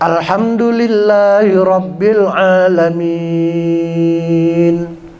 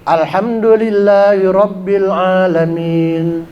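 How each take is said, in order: First: The final vowel is held very long. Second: The final vowel is held only briefly. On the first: "Kalau kita baca enam harokat" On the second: "lebih cepat lagi ... cuman dua harokat"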